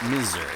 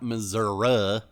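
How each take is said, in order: First: It is said in the speaker's usual way. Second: It is said the southern Missouri way.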